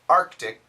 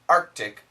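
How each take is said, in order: First: The K sound after the R is kept. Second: The K sound after the R is kept.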